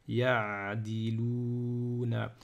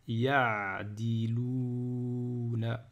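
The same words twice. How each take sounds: No difference in how they are said.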